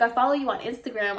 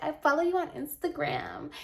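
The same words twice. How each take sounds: First: Said in the usual way. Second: Higher, softer mocking quote; put-on client voice, raised and softened; cringey client imitation. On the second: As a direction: mimic her cringeworthy gushing, small and high. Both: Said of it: "I cringed when she said".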